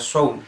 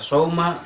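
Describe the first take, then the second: First: The word ends with no final vowel. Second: The word ends with the vowel a. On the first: "apalagi dibaca saum, disukunkan" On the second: "enggak dibaca sauma"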